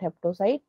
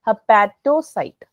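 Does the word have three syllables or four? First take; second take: three; four. First: The word is said with three syllables, hep-to-cyte. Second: The word is said with four syllables, hep-a-to-cyte. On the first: The speaker calls it wrong. "Not हेप्टोसाइट" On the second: The speaker calls it right. "Sorry, हेपेटोसाइट"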